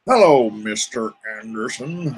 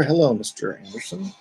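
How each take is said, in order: First: Slow, cold, deliberate movie-villain line; mock sinister greeting to a viewer named Anderson. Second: Said in the usual way. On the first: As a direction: savour each word like a menacing agent. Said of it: "I'm sure you never heard that growing up".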